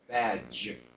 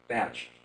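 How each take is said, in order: First: The final consonant is voiced, like j. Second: The final consonant is unvoiced, like ch. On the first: The speaker calls it right. "more vocal cord vibration" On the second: The speaker calls it wrong. "it was really more like a batch"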